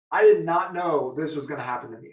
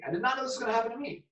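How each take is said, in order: First: Said in the usual way. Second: Fast, higher, rattled repeat; fast, higher stunned repeat; rushed disbelief. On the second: Retold or imitated. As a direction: rush it out again in shock.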